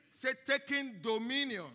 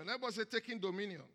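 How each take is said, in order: First: Louder prompt. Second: Said in the usual way. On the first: Shown as a demonstration. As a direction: push it out louder, rousing.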